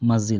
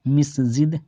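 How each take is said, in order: First: The first vowel is 'a', masjid. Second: The first vowel is 'i', misjid. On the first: The speaker calls it right. "यहाँ पे आप भी मस्जिद आया" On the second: The speaker calls it wrong. "आप इसको मिस्जिद नहीं पढ़ेंगे"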